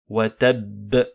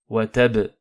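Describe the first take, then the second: First: The final b is doubled and ends with a bounce. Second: The final b is short and has no bounce. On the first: The speaker calls it right. "je marque at-tashdid ainsi que la qalqala à la fin" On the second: The speaker calls it wrong. "attention à ne pas faire wa tab"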